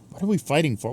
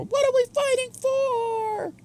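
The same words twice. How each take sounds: First: Said in the usual way. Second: High, slow, stretched-out question; dramatic high voice. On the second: Shown as a demonstration. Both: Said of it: "repeats line in dramatic voice".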